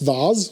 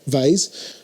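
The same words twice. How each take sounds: First: The word is said in a non-American accent. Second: The word is said in an American accent.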